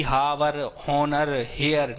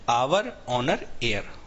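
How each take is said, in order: First: हावर, हॉनर, हेयर each with a sounded h; wrong pronunciation. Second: आवर, ऑनर, एयर each starting on a vowel, h silent; correct pronunciation. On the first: Teacher warns never to read them so, हावर, हॉनर, हेयर with h. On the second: Teacher corrects the reading, आवर, ऑनर, एयर without h. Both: Shown as a demonstration. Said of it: "इनको पढ़ना भी नहीं कभी".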